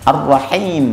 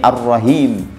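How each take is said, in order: First: The h is a harsh, tight throat sound. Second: The h is a soft, plain breath sound. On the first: The speaker calls it right. "ha dirubah menjadi ha" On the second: The speaker calls it wrong. "itu salah betul"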